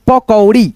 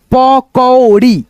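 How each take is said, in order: First: Said in the usual way. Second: pakodi slowly split as प, कौ, ड़ी; drawn-out teaching version of pakodi; syllable-by-syllable reading. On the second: Shown as a demonstration. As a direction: sound out pakodi piece by piece. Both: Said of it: "औ की ध्वनि निकालेंगे".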